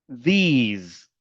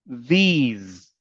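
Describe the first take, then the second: Both takes have the same delivery.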